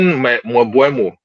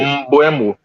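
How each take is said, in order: First: The name starts with an 'mw' sound. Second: The name starts with an 'mb' sound. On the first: The speaker calls it wrong. "You have been saying Mwe- Mwebuemo" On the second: The speaker calls it right. "you need to learn to pronounce that name correctly"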